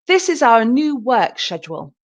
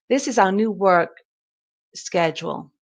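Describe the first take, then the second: First: Schedule begins with a soft 'sh' sound. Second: Schedule begins with a hard 'sk' sound. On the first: "So British" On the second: "And American"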